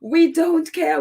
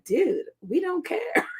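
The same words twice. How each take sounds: First: Higher and a bit louder, pressing the point; firm repeat. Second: Drawn-out, higher "Dude, we don't care"; dismissive "dude". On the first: Repeating it to the British press, firm and emphatic. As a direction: say it flatly, like you mean it. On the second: To the offended Tory MP, a drawn-out dismissive brush-off. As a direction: slowly wave off the offended MP. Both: Retold or imitated. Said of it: "And it's just like".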